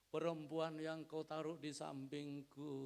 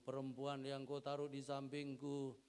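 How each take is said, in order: First: The line is acted out in an accusing way. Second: The line is told in a plain, neutral way. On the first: "kalau saya peragakan begini loh" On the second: "Adam jawabnya begini"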